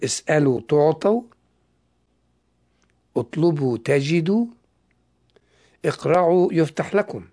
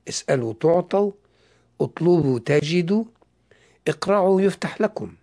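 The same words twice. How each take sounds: First: It is read slowly and deliberately. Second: It is read at a normal, quicker pace.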